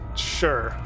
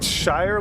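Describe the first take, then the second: First: It is said with a short reduced vowel. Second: It is said with a full 'eye' vowel. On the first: "or is it Sure" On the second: "Is it Shire like the Hobbit"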